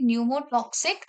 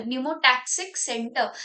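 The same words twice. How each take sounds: First: "pneumotoxic" slipped out with TOX in place of TAX; mispronounced term. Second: "pneumotaxic" said slowly with TAX as the third syllable; corrected pronunciation. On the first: Teacher naming the brain center for students, mispronounced term. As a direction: say "pneumotoxic" with an o sound in the third syllable. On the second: Teacher fixing a slip in the center's name, corrected pronunciation. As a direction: say "pneumotaxic" slowly, silent P, "tak-sik" at the end. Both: Real, not acted. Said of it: "sorry, pneumotaxic centre".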